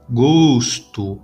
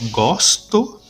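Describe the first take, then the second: First: The first o is a closed vowel. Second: The first o is an open vowel. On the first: It names something abstract. "gosto, o O fechado" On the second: It expresses an action. "o som aberto na primeira opção, go, gosto, né? O O aberto"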